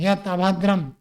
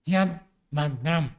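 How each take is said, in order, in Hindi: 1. d के बाद पूरा स्वर है। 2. d के बाद कोई स्वर नहीं है। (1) "द को पूरा कर दिया" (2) "द हलंत है"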